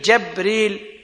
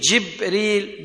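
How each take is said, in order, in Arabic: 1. المقطع الأول فيه حركة 'a'. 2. المقطع الأول فيه حركة 'i'. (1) "بفتح الجيم" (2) "بكسر الجيم"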